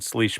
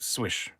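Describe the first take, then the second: First: The second consonant sound is an L. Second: The second consonant sound is a W. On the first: The speaker calls it wrong. "it's not how you say it" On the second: The speaker calls it right. "It's a, a W sound"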